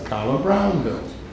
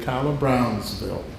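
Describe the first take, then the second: First: The name has no s sound before 'ville'. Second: The name has an s sound before 'ville'. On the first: The speaker calls it right. "I remind people, you know, it's" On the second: The speaker calls it wrong. "Most people in Savannah, when you hear them pronounce it, they say"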